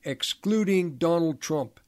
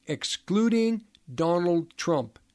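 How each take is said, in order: First: "Excluding" hit firmly, at normal pace, falling on "Trump"; emphasized repeat. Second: Slow, stressed "excluding Donald Trump" with "excluding" leaned on; emphasized. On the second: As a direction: drag out "excluding" and land hard on "Donald Trump". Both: Real, not acted. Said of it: "I emphasize that".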